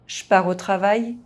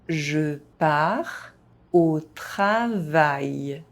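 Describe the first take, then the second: First: It is spoken fast, with some sounds dropped. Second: It is spoken at an ordinary, moderate pace. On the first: "fast, as a native speaker would do" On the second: "at a normal pace"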